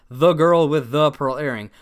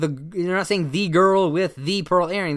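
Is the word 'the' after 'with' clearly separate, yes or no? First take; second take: no; yes. First: The word 'the' after 'with' blends into the 'th' sound. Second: The word 'the' after 'with' is said clearly and separately. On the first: "They're saying the girl with the pearl earring" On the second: "They're not saying the girl with the pearl earring"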